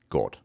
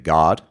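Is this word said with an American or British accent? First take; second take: British; American. First: It has a rounded vowel, British style. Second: It has an open unrounded vowel, American style. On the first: "like a modern British person would pronounce it" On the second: "Whereas we tend to say"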